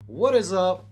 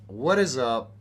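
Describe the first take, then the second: First: Excited greeting. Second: Said in the usual way. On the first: Real, not acted. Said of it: "streamer greeting". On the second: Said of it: "repeated greeting".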